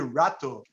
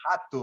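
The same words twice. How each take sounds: First: The first sound is a plain R. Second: The first sound is like an H. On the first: "don't say rato" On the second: "we say"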